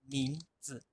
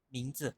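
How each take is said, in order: First: "mingzi" dicho en mandarín, suave y con tono. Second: "Mingzi" repetido en mandarín, más corto. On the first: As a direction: pronunciar "mingzi" como hablante chino. ("mingzi" en mandarín) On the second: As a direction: volver a decir "Mingzi" en mandarín. ("Mingzi" repetido) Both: Shown as a demonstration. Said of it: "en chino dicen".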